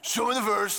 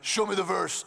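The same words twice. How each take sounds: First: It is said in his normal voice. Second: It is said in a put-on caveman voice.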